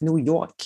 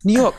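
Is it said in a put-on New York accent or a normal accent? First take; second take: New York; normal. First: It is said in a put-on New York accent. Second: It is said in the speaker's normal accent.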